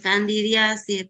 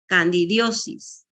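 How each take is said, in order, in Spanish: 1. La palabra termina en la vocal 'a': '-asis'. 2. La palabra termina en la vocal 'o': '-osis'. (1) "lo que está acostumbrado a pronunciarse es con A" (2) "la terminación tendría que ser osis"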